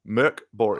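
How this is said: The name is said with a Swedish pronunciation. The speaker calls it right. "those that can pronounce it"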